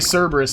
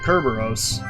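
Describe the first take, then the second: First: The word begins with a soft S sound. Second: The word begins with a hard K sound. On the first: The speaker calls it wrong. "when people say Cerberus, it bothers me too" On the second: The speaker calls it right. "it's actually Kerberos"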